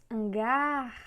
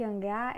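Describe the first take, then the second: First: HanGAAR with GAR stretched out; stress on last syllable. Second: Said in the usual way. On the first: Shown as a demonstration. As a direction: draw out the end of hangar as if calling. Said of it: "a força está na última sílaba".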